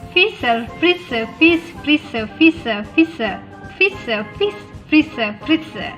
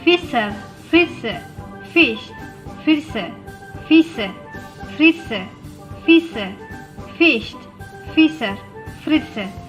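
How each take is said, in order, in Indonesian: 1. Diucapkan dengan tempo yang sangat cepat. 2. Diucapkan dengan tempo yang cepat. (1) "Lebih cepat lagi" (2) "Lebih cepat lagi"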